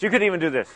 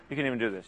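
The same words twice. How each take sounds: First: Said in the usual way. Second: You can even do this said much softer and lower; soft repeat. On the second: Shown as a demonstration. Preacher repeating encouragement to the church, much softer. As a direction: drop it to a near hush the second time.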